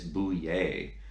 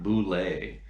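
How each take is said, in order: First: The name is said without an L sound. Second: The name is said with an L sound. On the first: The speaker calls it right. "It's Bouillet, and it's French, so don't pronounce the L's" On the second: The speaker calls it wrong. "It's not Boulet"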